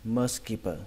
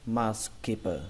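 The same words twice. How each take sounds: First: It is said at a normal, connected pace. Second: It is said slowly with the parts separated.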